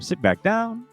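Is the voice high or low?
high. It is said in a higher voice.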